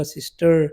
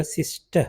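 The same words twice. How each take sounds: First: सिस्टर with the final r sounded, American style; American pronunciation. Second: सिस्टर with no final r, ending on a soft uh; British pronunciation. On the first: Teacher showing students the American सिस्टर with the r pronounced. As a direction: say सिस्टर ending in a clear r. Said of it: "American में होगा सिस्टर". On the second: Teacher showing students the British सिस्टर with the r dropped. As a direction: drop the r in सिस्टर, British style. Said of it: "British में होगा सिस्टर". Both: Shown as a demonstration.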